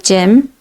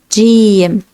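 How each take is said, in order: First: The vowel is short and clipped. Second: The vowel is stretched out long. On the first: The speaker calls it wrong. "Don't say Jim" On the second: The speaker calls it right. "we say Jim. We stretch Jim"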